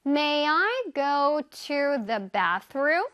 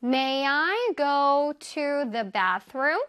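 First: May I go to the bathroom? 을 한 단어씩 아주 천천히; slow model sentence. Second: May I go to the bathroom? 을 다시 아주 천천히; slow model sentence. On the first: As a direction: read it slowly for learners. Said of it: "영어로 한번 표현해 볼게요". (아주 천천히 또박또박 읽는 예문) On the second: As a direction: repeat slowly for learners to copy. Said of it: "One more time". (다시 한 번 천천히 또박또박) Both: Shown as a demonstration.

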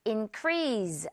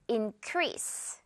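First: Increase ending on a buzzing z; wrong Z ending. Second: Increase ending on a crisp hissed s. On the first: Teacher showing the wrong way, increase with a z. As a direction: say increase with a voiced z. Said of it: "increase 아니고 increase". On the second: Teacher showing the right way, increase with a sharp s. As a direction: end increase on a clean s. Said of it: "S 발음". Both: Shown as a demonstration.

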